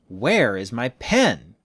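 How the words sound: Where is strongly stressed, sounding angry. "You can put an extra stress on the W H word to make it stronger"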